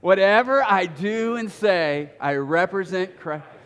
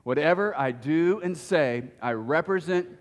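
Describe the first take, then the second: First: It is said with lively enthusiasm. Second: It is said in a plain, flat way.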